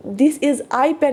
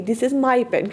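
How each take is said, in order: First: Slow, deliberate "This is I pen", stressing "I" as the error; wrong form shown. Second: "This is my pen" said naturally, with the fall on "my"; correct form. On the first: Teacher warning students not to write this, slow and deliberate. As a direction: spell out "This is I pen" word by word, as the mistake. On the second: Teacher correcting the students, plain and settled. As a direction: give "This is my pen" as the fixed, correct version. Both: Shown as a demonstration. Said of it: "में मत लिखूँगी".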